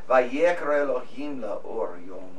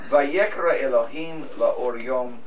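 First: The phrase is read flatly, without marked rhythm. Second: The phrase is read with a marked, lilting rhythm. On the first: The speaker calls it wrong. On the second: The speaker calls it right.

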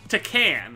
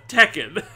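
First: It is said with a Latin-sounding accent. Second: It is said with a standard English accent. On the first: The speaker calls it wrong. "the chick said Tekken" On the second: The speaker calls it right. "instead of Tekken"

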